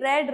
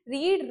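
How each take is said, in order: First: The vowel is short, like 'red'. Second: The vowel is long, like 'reed'. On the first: It is the past tense form. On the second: It is the present tense form.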